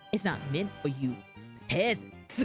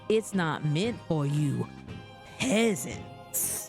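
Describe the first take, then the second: First: The line is said plainly, with little sass. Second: The line is said with more sass. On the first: The speaker calls it wrong. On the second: The speaker calls it right.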